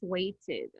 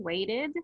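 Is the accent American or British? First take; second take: British; American. First: It is said with a British accent. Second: It is said with a North American accent. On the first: "as British English" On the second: "like North American English"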